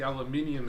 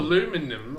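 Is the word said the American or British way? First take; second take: British; American. First: It is said the British way, five syllables. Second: It is said the American way, four syllables. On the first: The speaker calls it right. "as normal people say it" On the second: The speaker calls it wrong. "Fuck you, America"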